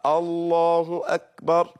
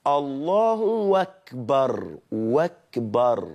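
First: الله أكبر slow, with short final vowel in "akbar"; correct takbir. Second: الله أكبر slowly glided as "Allahu-wakbar"; hamza becomes waw. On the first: Teacher summing up the proper form, slow and careful. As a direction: say الله أكبر deliberately, hamza intact. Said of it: "تقولها كده". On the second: Teacher demonstrating the dialect variant, hamza turned to waw. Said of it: "تشيل الهمزة نفسها وحط واو". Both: Shown as a demonstration.

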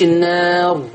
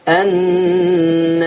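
First: النار with a plain open alif; فتح زي حفص. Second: النار drawn out very long, alif tilted slightly toward e; تقليل الألف. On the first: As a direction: say النار with a full open a, no tilt. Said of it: "زينا كده زي حفص". (النار بألف مفتوحة من غير إمالة) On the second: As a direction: slowly chant النار, leaning the a toward e. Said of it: "ملت سنة بالألف". (النار بإمالة خفيفة في الألف، ممدودة) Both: Shown as a demonstration.

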